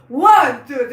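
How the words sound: The counting is pushed and forceful.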